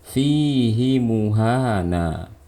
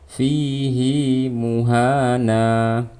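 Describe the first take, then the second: First: The vowel of 'hi' is short. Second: The vowel of 'hi' is long. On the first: The speaker calls it wrong. "Seharusnya kita nggak boleh membaca panjang. Cara bacanya seperti tadi" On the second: The speaker calls it right. "hi-nya dibaca panjang"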